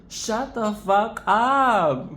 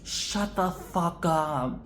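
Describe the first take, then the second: First: Higher, louder, slow; drawn-out mock outrage; louder slow disbelief. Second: Said in the usual way. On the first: Real, not acted. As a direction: stretch each word out in amazed disbelief. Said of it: "louder repeat".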